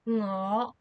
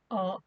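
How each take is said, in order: First: The word begins with a nasal ng sound. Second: The word begins directly with a vowel. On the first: "We use the no sound at the beginning" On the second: "when we are speaking fast or we or we are lazy, we will also say oh instead"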